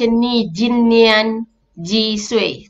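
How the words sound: The syllables are read with Malay-style sounds. The speaker calls it wrong. "Kalau kita direct baca"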